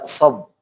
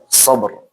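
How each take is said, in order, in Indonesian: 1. Konsonan akhirnya dihilangkan. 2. Konsonan akhirnya jelas dilafalkan.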